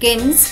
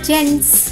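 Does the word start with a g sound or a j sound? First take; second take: g sound; j sound. First: The word starts with a hard g sound. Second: The word starts with a j sound. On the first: The speaker calls it wrong. "గెన్స్ కాదు" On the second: The speaker calls it right. "జీ యొక్క శబ్దం ఘ కాకుండా ఝ అవుతుంది"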